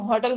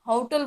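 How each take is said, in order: First: It is said with an Indian English accent. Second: It is said with a US/UK English accent. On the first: "हमारे India में होटल बोला जाता है" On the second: "foreign में उसको होटल बोला जाता है"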